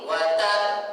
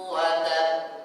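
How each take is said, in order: First: The final doubled b is pressed with extra force. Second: The final doubled b is said without extra force. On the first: The speaker calls it wrong. "Tidak perlu di wa tabb" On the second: The speaker calls it right. "tapi biasa aja"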